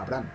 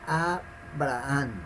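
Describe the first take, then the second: First: No pause follows the first syllable. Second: A short pause follows the first syllable. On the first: The speaker calls it wrong. "No es Abraham" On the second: The speaker calls it right. "su correcta pronunciación es A, ... Es A y como que tiende a detenerse un poquito"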